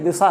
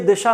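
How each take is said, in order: First: The middle consonant is a dental 's' sound. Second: The middle consonant is an 'sh' sound. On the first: The speaker calls it right. "सड़क वाला सा ही होता है, दंत सा" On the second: The speaker calls it wrong. "ये दिशा नहीं है"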